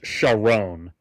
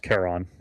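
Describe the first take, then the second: First: The name is said in an anglicized pronunciation. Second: The name is said in its original pronunciation. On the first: This is how the name is said in the movie. "They just anglicized the pronunciation of his name" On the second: This is the name of the mythological figure. "it is pronounced Charon"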